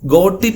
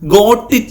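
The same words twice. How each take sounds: First: The t in 'got' sounds like a d. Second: The t in 'got' is a clear t. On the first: The speaker calls it right. "ഗോട്ടിന്റെ ടി ആയിട്ട് ഡി ആക്കി നോക്കിയേ" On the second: The speaker calls it wrong. "ഗോട്ട് it എന്ന് പറയരുത്"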